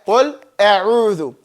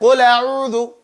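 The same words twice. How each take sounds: First: The hamza is pronounced with a break after qul. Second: The hamza vowel joins the lam without a break.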